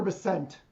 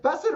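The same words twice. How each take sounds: First: Bessent with the second syllable stressed, buh-SENT. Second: Bessent with the first syllable stressed, BESS-ent. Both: Shown as a demonstration. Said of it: "so I said it wrong both times".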